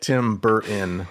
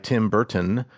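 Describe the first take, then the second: First: The T in Burton is dropped. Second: The T in Burton is clearly pronounced. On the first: The speaker calls it wrong. "the youth of today do where they drop the T's" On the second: The speaker calls it right. "I'm going to enunciate the T's"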